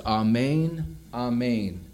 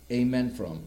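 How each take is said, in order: First: "Amen, amen" said AH-MAYN with an open ah; Greek amen. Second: Said in the usual way. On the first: Shown as a demonstration. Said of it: "In the Greek, they are the words". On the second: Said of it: "the word we get our".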